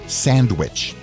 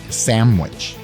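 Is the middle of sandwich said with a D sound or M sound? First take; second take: D sound; M sound. First: The middle is said with a D sound. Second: The middle is said with an M sound. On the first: The speaker calls it right. "instead of sandwich" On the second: The speaker calls it wrong. "He pronounces it sandwich"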